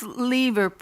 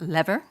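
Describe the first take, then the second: First: It uses the speaker's own non-American pronunciation. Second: It uses the American pronunciation of the name.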